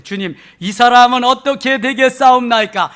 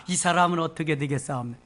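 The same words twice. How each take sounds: First: Loud, raised reading of Peter; Peter's loud plea. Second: Said in the usual way. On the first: Acted. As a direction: call it out to the Lord. Peter's question read aloud.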